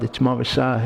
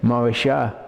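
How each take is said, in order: First: The middle consonant is a hard s sound. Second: The middle consonant is an sh sound. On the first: It means betrothal. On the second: It means inheritance.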